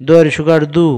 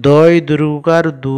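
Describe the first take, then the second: First: দু with a short u, not stretched; short vowel. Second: দু held long at the end; long vowel. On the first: Teacher contrasting the short sign, দু cut short without drawing out. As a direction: keep the vowel of দু brief. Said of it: "মানে বেশি টানতাম না". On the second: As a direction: stretch the u of দু well out. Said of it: "এইভাবে উচ্চারণ করব". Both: Shown as a demonstration.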